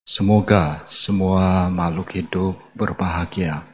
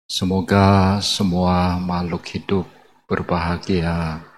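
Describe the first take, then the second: No difference in how they are said.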